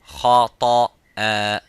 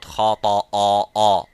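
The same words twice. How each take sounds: First: The hamza is light, without a full mouth. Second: The hamza is heavy, with a full mouth. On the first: The speaker calls it right. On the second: The speaker calls it wrong.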